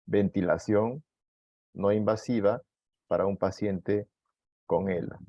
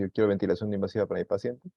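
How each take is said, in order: First: Said in the usual way. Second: Brisk, lightly voiced caregiver asking the doctor; quick mock request. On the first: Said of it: "lo que tienen que decir es que necesitan". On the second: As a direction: rattle off "Yo quiero ventilación no invasiva" as the caregiver would. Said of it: "cuando usted le dice".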